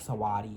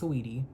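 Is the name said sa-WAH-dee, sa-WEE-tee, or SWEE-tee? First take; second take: sa-WAH-dee; sa-WEE-tee. First: Three syllables, with an ah sound in the middle. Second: Three syllables, with an ee sound in the middle. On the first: The speaker calls it wrong. "the wrong way like Sawadi" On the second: The speaker calls it right. "pronounced correctly, which is [name]"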